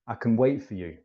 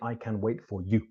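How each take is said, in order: First: The word can is said weakly with a reduced vowel. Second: The word can is said fully with a clear vowel. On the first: The speaker calls it right. "So I can tends to be pronounced I can" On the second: The speaker calls it wrong. "We don't say, ... sounds very strange"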